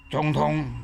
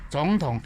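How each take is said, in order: First: 总统 with both syllables kept in full third tone; wrong tones. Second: 总统 with the first syllable turned to second tone; correct tone sandhi. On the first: Teacher showing the awkward unchanged tones. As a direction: say 总统 without the tone change, both syllables dipping. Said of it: "你袂使讲总统". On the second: Teacher showing the correct tone change. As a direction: say 总统 with a rising 总 then dipping 统. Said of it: "所以变成总统". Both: Shown as a demonstration.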